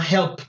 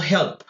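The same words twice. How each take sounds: First: HELPED ending in a crisp T sound. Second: Said in the usual way. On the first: Shown as a demonstration. Teacher shows the voiceless ending, HELPED said "helpt". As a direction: say HELPED as one syllable, "helpt". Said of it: "la E D la pronuncio como una T". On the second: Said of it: "termina en P".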